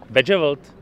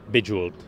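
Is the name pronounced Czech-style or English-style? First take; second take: Czech-style; English-style. First: The name is pronounced in a Czech way. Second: The name is pronounced in an English way. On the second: "Tak teď se tomu říká"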